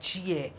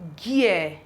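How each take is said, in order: First: The word begins with a soft j sound. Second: The word begins with a hard g sound. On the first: The speaker calls it wrong. "not gear" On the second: The speaker calls it right. "this G is sounding G"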